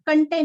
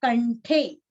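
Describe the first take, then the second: First: कंठे with an unaspirated ठ, said as kanṭe; the mistaken कंठे, flat ठ with no breath; wrong pronunciation. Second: कंठे with a breathy aspirated ठे, kanṭhe; the proper कंठे, push air on ठे; correct pronunciation. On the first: Teacher showing students the wrong way, कंठे without aspiration. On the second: Teacher showing students the right way, कंठे with aspirated ठे. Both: Shown as a demonstration. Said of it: "कंठे नहीं".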